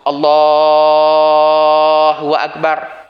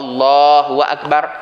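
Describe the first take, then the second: First: The long vowel is drawn out very long. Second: The long vowel is held only briefly. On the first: "boleh pergi sampai empat belas harakat" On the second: "sunat afdalnya dua harakat"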